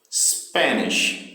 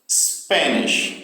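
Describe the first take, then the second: First: Spanish, SPAN punched and nish falling; first-syllable stress on Spanish. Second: Spanish, SPAN strong and nish light; stress on SPAN. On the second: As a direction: hit the first syllable of Spanish. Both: Shown as a demonstration. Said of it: "o início também é a, onde tem a sílaba com mais força".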